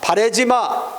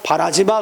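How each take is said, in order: First: The second syllable has the vowel 'ae'. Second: The second syllable has the vowel 'a'. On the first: The speaker calls it wrong. "바래지 마가 아니라" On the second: The speaker calls it right. "바라지 마 그래야 돼"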